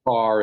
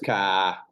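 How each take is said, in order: First: It is said with the R pronounced. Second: It is said New England style, without R.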